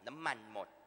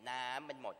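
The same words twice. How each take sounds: First: The stress falls on the word มัน. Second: The stress falls on the word น้ำ. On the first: "เน้นคำว่ามัน" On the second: "คุณเน้นน้ำ"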